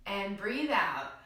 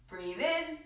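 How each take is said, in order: First: A slow breath out while saying it; slow exhale. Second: A slow, deep breath in through the nose, barely voiced; audible deep inhale. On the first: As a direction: let the breath out slowly as you speak. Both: Shown as a demonstration.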